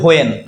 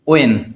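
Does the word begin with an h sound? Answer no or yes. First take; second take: yes; no. First: The word begins with an h sound. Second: The word begins with a w sound. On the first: The speaker calls it wrong. "আমরা বলি হোয়েন" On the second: The speaker calls it right. "কিন্তু হবে কি ওয়েন"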